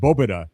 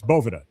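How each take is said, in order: First: The middle consonant sounds like a B. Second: The middle consonant sounds like a V. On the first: This is the Spanish pronunciation. "it's actually pronounced Bobeda, like almost like because V's right in the Spanish language in ma- many instances are pronounced like a B" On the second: This is the English pronunciation. "if you're going to pronounce it like an American, right, in the English language, it's Boveda"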